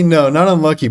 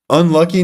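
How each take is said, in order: First: Not punched, unlucky falling flat; rejecting the excuse, landing on not; stress on not. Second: Unlucky? rising like reading a chat comment; echoing a chat message as a question. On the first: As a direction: firmly correct with weight on not. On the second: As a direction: ask Unlucky? with an upward lilt. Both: Real, not acted.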